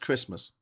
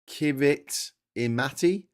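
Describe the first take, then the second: First: The 'ti' is said with an s sound. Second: The 'ti' is said with a t sound. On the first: The speaker calls it right. "It's pronounced Christmas" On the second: The speaker calls it wrong. "You think it's pronounced like that? It's not"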